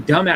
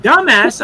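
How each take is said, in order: First: Said in the usual way. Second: Loud, high incredulous DUMBASS; shocked echo. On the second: Retold or imitated. Speaker learning what the nickname means, DUMBASS loud and shocked. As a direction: repeat "Dumbass" back in retold disbelief.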